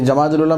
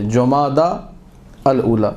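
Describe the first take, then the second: First: It is said as 'Jamadul Ula', with 'ja' and 'dul'. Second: It is said as 'Jumada al-Ula', with 'ju' and 'al'. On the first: The speaker calls it wrong. "गलत लफ्ज़ है" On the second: The speaker calls it right. "Arabic जो correct pronunciation"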